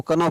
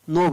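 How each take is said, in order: First: कनो with the k sounded, "kuh-no"; wrong reading. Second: नो said with no k sound, plain "no"; silent k. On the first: Teacher showing students the mistaken reading, k sounded. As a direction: say कनो with a clear k in front. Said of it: "कनो नहीं पढ़ना". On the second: Teacher giving students the correct reading, k silent. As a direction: start नो right on the n. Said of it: "नो पढ़ना". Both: Shown as a demonstration.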